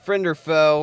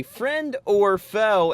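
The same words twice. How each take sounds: First: Said in the usual way. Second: Slow, high, announcer-style "Friend or foe?"; drawn-out game title. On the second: Shown as a demonstration. Host announcing the game segment, slow and high. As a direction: stretch every word of "Friend or foe?" like a show host.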